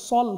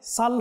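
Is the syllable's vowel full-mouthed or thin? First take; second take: full-mouthed; thin. First: The vowel is heavy and full-mouthed, like 'o'. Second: The vowel is light and thin, like 'a'. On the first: The speaker calls it right. "সল হবে" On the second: The speaker calls it wrong. "সদ থাকলে সাল হবে না"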